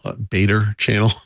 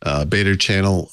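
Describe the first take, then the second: First: Beta channel said Boston style, r dropped as "betta chan-nel"; Boston accent. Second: Said in the usual way. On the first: Shown as a demonstration. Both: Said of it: "channeling my inner Bostonian".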